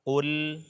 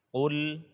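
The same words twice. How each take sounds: The two takes are said the same way.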